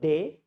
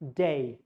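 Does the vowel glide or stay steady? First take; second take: steady; glide. First: The vowel is one steady sound. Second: The vowel glides toward an ee sound. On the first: The speaker calls it wrong. "This is not day" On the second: The speaker calls it right. "it's day"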